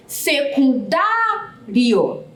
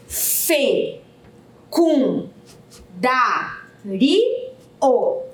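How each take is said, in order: First: "Secundário" called out with a long, drawn-out DA; calling the word. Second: "Se-cum-da-ri-o" in five very slow, separate beats; syllable by syllable. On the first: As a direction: call "Secundário", stretching the stressed DA. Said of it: "basta chamá-la". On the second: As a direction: sound out "Se-cum-da-ri-o" with a pause after every syllable. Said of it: "Vamos pronunciar pra saber quantas sílabas". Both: Shown as a demonstration.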